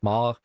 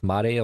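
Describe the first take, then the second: First: The word is said with a French accent. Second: The word is said with a Japanese accent. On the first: "Am I supposed to pronounce it like a French?" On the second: "Am I supposed to pronounce, pronounce it Japanese?"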